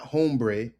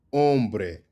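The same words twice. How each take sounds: First: Hombre said hohm-bray; sounded H. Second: Hombre said om-breh, tapped R; silent H. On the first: Teacher showing what to avoid, "hombre" with a sounded H. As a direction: give "hombre" an English H and "ay" ending. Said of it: "not hombre". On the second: Teacher giving the correct form, "hombre" with silent H. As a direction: drop the H, crisp bre in "hombre". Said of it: "Emphasis on the bre". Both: Shown as a demonstration.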